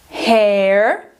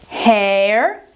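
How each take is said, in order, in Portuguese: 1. Ela é pronunciada com sotaque americano. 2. Ela é pronunciada com sotaque americano.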